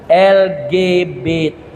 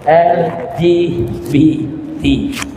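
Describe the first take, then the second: First: The letters are read with Indonesian letter names. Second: The letters are read with English letter names. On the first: "Kalau dalam singkatan ejaan Indonesia dibaca" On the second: "Dalam ejaan Inggris disebut"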